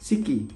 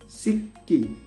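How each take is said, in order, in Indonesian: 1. Bunyi k-nya pendek dan tunggal. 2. Bunyi k-nya ditahan lama dan dobel.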